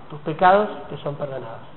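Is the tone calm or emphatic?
calm. It is said in a calm, reassuring tone. Forgiveness brings peace. "Entonces eso nos da paz"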